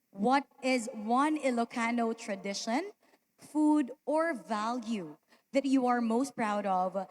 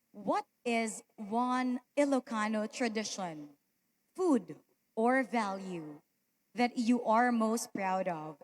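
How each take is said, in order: The two takes are said the same way.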